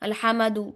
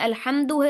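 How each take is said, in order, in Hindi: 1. m और d के बीच "a" स्वर आता है। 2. m सीधे d से जुड़ जाता है। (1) "मीम के ऊपर जबर लगा देना" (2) "साकिन"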